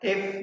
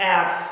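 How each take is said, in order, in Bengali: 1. F-এর উচ্চারণে শোনা যায় খুব সামান্য বায়ুপ্রবাহ। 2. F-এর উচ্চারণে শোনা যায় জোরালো বায়ুপ্রবাহ। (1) "আমরা এফ না বলে" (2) "বলবো এফ, যাতে এয়ার ফ্লোটা হয়"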